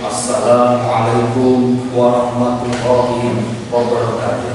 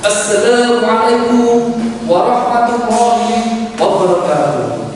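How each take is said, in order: First: It is said softly and slowly. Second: It is said loudly and energetically. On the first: The speaker is a calm religious scholar. "nadanya nadanya pelan" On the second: The speaker is a young student. "Salamnya ini boleh"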